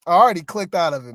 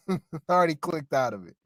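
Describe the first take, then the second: First: Said in the usual way. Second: Saying it again through a laugh, quieter; laughing at himself, softer. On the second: Real, not acted. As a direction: chuckle while repeating the line.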